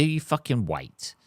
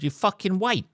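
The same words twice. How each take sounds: First: "You fucking wait" slow, each word weighted; slow emphatic. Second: "wait" jumps high then falls; emphatic. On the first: Ranting driver repeats the rule, slow and firm. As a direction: lean on "You" slowly and firmly. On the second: Rant to listeners, insistent. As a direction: pitch "you fucking wait" well up, dropping on "wait". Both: Shown as a demonstration.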